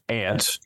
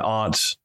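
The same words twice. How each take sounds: First: It is said the Tennessee way, like 'ant'. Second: It is said the New England way, like 'ahnt'.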